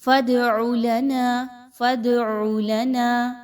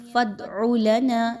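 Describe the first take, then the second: First: فَادْعُ with the د bounced, a small echo; slow, louder فَادْعُ with a clear bounce on د; teacher shows the right qalqala in فَادْعُ. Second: فَادْعُ with the د stopped dead, no bounce; teacher shows the wrong flat د in فَادْعُ. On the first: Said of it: "قلقلہ کا قاعدہ کیسے follow کریں گے". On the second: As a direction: show the mistake in فَادْعُ: a flat, held د. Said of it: "ایسے نہیں پڑھنا". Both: Shown as a demonstration.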